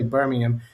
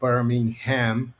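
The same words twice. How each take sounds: First: It is said with a British pronunciation. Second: It is said with an American pronunciation. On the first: "in the U K we say Birmingham" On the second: "as the Americans would say"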